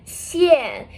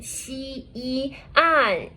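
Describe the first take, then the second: First: "xian" blended into a single falling syllable; teacher's joined-up "xian" with a drop; fourth tone. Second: "xi, yi, an" in separate level syllables; teacher breaking down "xi, yi, an"; separated pinyin parts. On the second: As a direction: sound out "xi", "yi", "an" one after another. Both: Shown as a demonstration. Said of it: "with the fourth tone".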